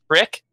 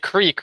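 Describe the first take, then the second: First: The vowel is a short 'i', Philadelphia style. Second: The vowel is a long 'ee' sound.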